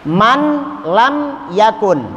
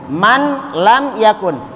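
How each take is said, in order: Both takes have the same delivery.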